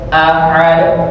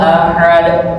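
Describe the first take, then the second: The two takes are said the same way.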